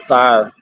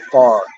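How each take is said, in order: First: The word has a full gliding 'fire' vowel. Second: The word is flattened so it sounds like 'far'. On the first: "they wouldn't say fire" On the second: "They'd say far"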